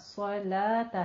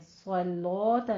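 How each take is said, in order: First: The vowel after the L is an open 'a'. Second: The vowel after the L is a rounded 'o'. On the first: The speaker calls it right. "स्वलाता है" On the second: The speaker calls it wrong. "स्वलोता नहीं है"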